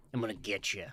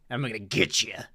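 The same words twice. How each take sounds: First: Lower, much softer creaking fry; deep vocal fry, nearly silent; fried whisper threat. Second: Low, soft menacing line; mildly creepy growl; creepy threat. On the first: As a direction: breathe it out like a ghost. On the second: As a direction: tease like a lurking ghost. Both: Pretend. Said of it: "weird-ass noises".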